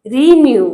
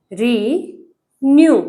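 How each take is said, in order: First: Said in the usual way. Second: renew very slowly, री and new held apart; teacher sounding out renew piece by piece; renew syllable by syllable. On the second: Shown as a demonstration. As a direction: break renew in two with a long pause after री. Teacher splits word into syllables.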